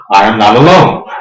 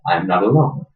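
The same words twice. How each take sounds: First: "alone" rising, said much louder; a loud, triumphant repeat; louder insistent repeat. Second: Said in the usual way. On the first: Shown as a demonstration. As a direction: proclaim it again for all to hear.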